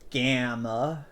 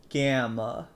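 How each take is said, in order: No difference in how they are said.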